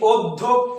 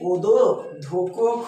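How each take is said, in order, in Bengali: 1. ব্যঞ্জনগুলো বাড়তি স্বরধ্বনি ছাড়াই একসাথে যুক্ত থাকে। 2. বাড়তি স্বরধ্বনি ব্যঞ্জনগুলোকে আলাদা আলাদা দলে ভাগ করে দেয়। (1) "নাকি অধ্যক্ষ" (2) "যদি এটা আমি না দিতাম তাহলে উচ্চারিত কি হতো"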